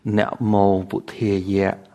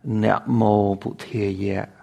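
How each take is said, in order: First: It is said with the Cambodian Pali pronunciation. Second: The same.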